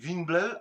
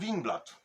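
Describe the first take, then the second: First: The name is pronounced the Danish way. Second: The name is pronounced the Polish way. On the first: "po duńsku się mówi" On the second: "a my mówimy"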